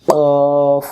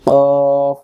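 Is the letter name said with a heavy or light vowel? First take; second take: heavy; heavy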